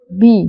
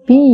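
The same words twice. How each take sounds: First: "বি" said short, the common way; mispronounced B. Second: "বি" with a long, drawn-out ee. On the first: Teacher showing learners the usual faulty letter, short B. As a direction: give a short everyday "বি" to be corrected. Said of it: "বি না". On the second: Teacher correcting the alphabet for learners, long B sound. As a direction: stretch the vowel in "বি". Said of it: "long sound". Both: Shown as a demonstration.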